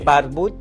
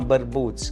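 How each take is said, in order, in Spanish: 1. El nombre termina en una t simple. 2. El nombre termina en un sonido ts. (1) "yo simplifico la cosa" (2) "en Rumanía se llama Barbuts"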